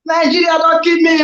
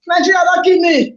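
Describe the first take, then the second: First: High, shouted plea; hammed-up despairing commentator shout; mock anguished shout. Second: High pleading cry; mock anguish. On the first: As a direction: yell the despair at the team. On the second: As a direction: beg the team to stop the pain. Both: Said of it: "Do am in the pidgin lifestyle".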